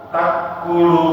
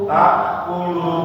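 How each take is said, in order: Both takes have the same delivery.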